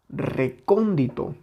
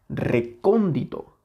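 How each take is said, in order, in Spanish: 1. La sílaba 'con' es tónica. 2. La sílaba 'con' es tónica.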